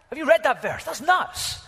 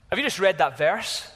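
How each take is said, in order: First: High, loud burst of disbelief; incredulous amazement. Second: Louder, questioning astonishment; mild disbelief. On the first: Preacher repeats question about startling verse, loudly incredulous. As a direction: shoot the pitch right up, astounded. Second take, astonished at miracle. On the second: Preacher asks congregation about a startling verse, mildly incredulous. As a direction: ask it emphatically, with a touch of disbelief. First take of amazed question. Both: Acted.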